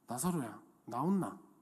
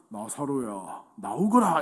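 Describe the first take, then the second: First: It is said casually, like nothing special. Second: It is said in a grand, solemn manner.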